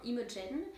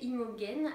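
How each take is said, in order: First: The g is pronounced as a soft 'je' sound. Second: The g is pronounced as a hard g. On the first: The speaker calls it right. "G-E, on s'entend que ça fait je ... même en anglais ça se prononce de la même façon" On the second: The speaker calls it wrong. "Je sais pas pourquoi j'ai prononcé Imogen"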